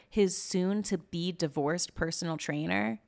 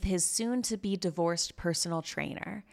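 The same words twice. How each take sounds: First: "soon-to-be divorced" drawn out slowly, word by word, in disbelief; pointed euphemism. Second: Said in the usual way. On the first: Retold or imitated. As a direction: slowly spell out "soon-to-be divorced" as a sceptical question. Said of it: "in the most nice way you possibly could".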